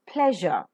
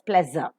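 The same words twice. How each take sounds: First: The middle consonant is a zh sound. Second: The middle consonant is a z sound. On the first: The speaker calls it right. "Aspirate per and pronounce zh" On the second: The speaker calls it wrong. "most of the non-native speakers tend to pronounce it as pleasure. Z"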